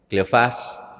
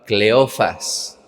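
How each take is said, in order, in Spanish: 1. El acento está en la última sílaba. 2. El acento no está en la última sílaba.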